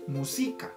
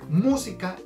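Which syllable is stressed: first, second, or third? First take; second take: second; first. First: The stress is on the second syllable. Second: The stress is on the first syllable. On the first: "Si cambiáramos el acento para el si, diríamos música" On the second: "el acento va en la mu"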